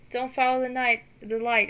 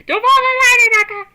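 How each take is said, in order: First: Said in the usual way. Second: High, loud laughing plea; laughing call. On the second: Acted. Calling to unconscious Inaka not to follow the light, high, loud and laughing. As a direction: call her back from the light, half laughing.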